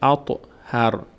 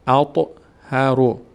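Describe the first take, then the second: First: The word ends on a bare r sound. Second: The word ends with a short vowel after r. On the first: The reading stops here. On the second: The reading continues without a stop.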